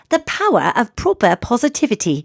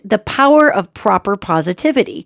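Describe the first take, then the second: First: It is said in a Mary Poppins voice. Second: It is said in the speaker's own voice.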